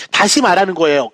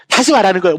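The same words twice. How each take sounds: First: 다시 hit hard, the rest falling away; stress on 다시. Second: Weight on 말하는 in 다시 말하는 거예요; stress on 말하는. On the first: Teacher explaining recant to students, stressing 다시. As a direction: lean on 다시 in 다시 말하는 거예요. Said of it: "어떻게 기억하시면 될 거냐면". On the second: Teacher linking can't to recant, stressing 말하는. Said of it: "can't가 cannot의 줄임말의 모습이잖아요". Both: Shown as a demonstration.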